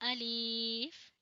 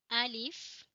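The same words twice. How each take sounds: First: अलीफ with a stretched ee; the mistaken अलीफ drawing out the i; wrong long vowel. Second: अलिफ with a short i, not अलीफ; अलिफ said al-if, clipped i; short alif. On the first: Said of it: "ऐसे नहीं पढ़ेंगे". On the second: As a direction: say अलिफ crisply, short second vowel. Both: Shown as a demonstration.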